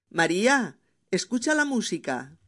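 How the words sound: There is a pause after María.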